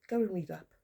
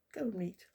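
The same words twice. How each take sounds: First: Said in the usual way. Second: Softer, voiceless whisper of the jibe. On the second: Real, not acted. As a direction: drop to a scornful whisper. Repeats the scolding, now whispered.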